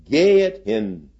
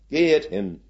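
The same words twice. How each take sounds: First: Gehet hin slow and louder, stress on Gehet; solemn command. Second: Gehet hin higher, stress on gehet, falling end; echoed command. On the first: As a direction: proclaim Gehet hin slowly. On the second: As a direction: repeat gehet hin like an echo. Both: Shown as a demonstration. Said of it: "ein Befehl des Herrn".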